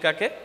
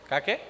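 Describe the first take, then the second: First: The word is said more loudly. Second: The word is said at normal volume.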